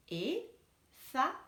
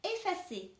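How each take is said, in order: First: Effacer stretched slowly into ef-fa-cer; slow teacher split of Effacer; syllable by syllable. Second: Said in the usual way. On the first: Shown as a demonstration. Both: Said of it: "couper le mot".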